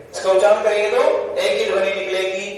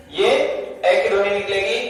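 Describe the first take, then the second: First: Said in the usual way. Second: "ए" said slowly with weight; ए stressed, slower. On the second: Shown as a demonstration. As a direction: lean on "ए", pronounced clearly as e. ("ए" पर ज़ोर, धीरे और साफ़)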